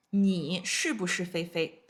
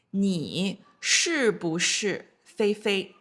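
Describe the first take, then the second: First: Said in the usual way. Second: 你是不是菲菲 said very slowly, every syllable clear; slow model question. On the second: Shown as a demonstration. Teacher first models the question to students, very slow. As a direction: drag out 你是不是菲菲 for learners. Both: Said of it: "So, for example".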